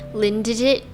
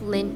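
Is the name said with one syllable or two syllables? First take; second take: two syllables; one syllable. First: The name is said with two syllables. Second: The name is said as one syllable.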